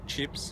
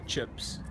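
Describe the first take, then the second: First: The vowel is said with an Australian accent. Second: The vowel is said with a New Zealand accent. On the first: "in Australia, we might say chips" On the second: "and they'll say chips"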